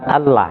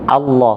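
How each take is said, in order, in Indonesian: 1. Kata ini diucapkan tipis, dengan vokal 'a' yang jelas. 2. Kata ini diucapkan tebal, dengan vokal yang mirip 'o'. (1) "bukan Allah" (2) "Allahnya dibaca tebal"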